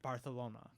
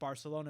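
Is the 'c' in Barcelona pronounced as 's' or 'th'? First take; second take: th; s. First: The c is pronounced as a th sound. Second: The c is pronounced as an s sound. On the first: "speak with the T H" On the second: "instead of"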